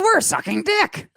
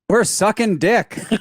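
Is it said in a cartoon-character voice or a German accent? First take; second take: cartoon voice; German accent. First: It is said in an imitated cartoon-character voice. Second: It is said with a German accent. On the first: "let me do it as Marge" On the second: "saying it with a German accent, I guess"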